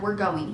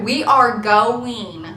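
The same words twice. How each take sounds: First: Said in the usual way. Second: WE ARE GOING, each word drawn out and loud; insistent. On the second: Retold or imitated. Insisting again to reluctant husband.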